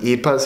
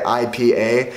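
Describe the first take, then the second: First: It is pronounced the way Swedes say it. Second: It is pronounced the way Americans say it. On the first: "you guys pronounce them I P As here in Sweden" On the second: "In America, we say I P A"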